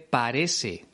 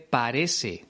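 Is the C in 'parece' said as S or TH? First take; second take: S; S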